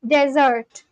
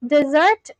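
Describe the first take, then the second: First: "desert" with an open e and the stress on the first syllable, DEH-zert; sandy desert. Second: "Dessert" with a short i-like first vowel and the stress on the second syllable, dih-ZERT; sweet dessert. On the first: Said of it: "desert is the place". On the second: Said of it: "dessert is what you have". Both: Shown as a demonstration.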